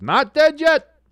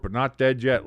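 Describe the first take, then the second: First: Loud, high, triumphant shout of NOT DEAD YET; excited cry. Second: Said in the usual way. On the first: Real, not acted. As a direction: burst out with fresh hope. Sudden burst of hope.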